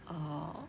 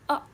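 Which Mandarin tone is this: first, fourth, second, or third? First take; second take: third; fourth. First: The pitch dips low then rises. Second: The pitch falls sharply from high.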